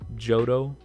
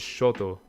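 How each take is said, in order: First: The name begins with a 'j' sound. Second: The name begins with a 'sh' sound. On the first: The speaker calls it right. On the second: The speaker calls it wrong.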